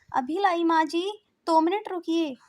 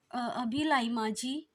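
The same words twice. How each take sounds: First: High, loud answering call; calling back. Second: Slow, hesitant, deflated answer; a disappointed hint of reluctance; dejected reply. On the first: Acted. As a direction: shout back from the kitchen. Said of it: "Aaradhya आवाज लगाती है". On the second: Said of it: "उतरे हुए मन से".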